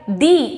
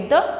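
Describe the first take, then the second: First: The vowel is long, sounding like 'thee'. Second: The vowel is short, sounding like 'thuh'. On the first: The next word starts with a vowel. "जब हम किसी vowel word के पहले शुरू करते हैं, like दी elephant" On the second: The next word starts with a consonant. "कॉन्सोनेंट word के पहले शुरू करना होगा तो हम द बोलेंगे"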